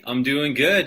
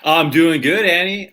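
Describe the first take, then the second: First: Said in the usual way. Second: Bright eager greeting; excited. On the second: Real, not acted. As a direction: greet her with a lift. Cheerful greeting.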